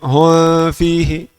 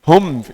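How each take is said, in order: First: The m is blurred with lips not fully closed. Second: The m is clear with lips fully closed. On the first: The speaker calls it wrong. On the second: The speaker calls it right. "Harus keluarkan mim dari makhrajnya dulu. Tutup tutup bibir"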